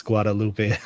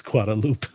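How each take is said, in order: First: "Guadalupe" said gwah-da-LOO-pay; Spanish pronunciation. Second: "Guadalupe" said gwah-da-LOOP; silent final e. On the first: Streamer reads a chat joke, "Guadalupe" ending in -pay. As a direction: sound the final e of "Guadalupe". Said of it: "Michael confirmed to pronounce". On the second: Streamer laughs at a chat joke, "Guadalupe" ending in -loop. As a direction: drop the last syllable of "Guadalupe", amused. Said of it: "as Guadalupe". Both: Shown as a demonstration.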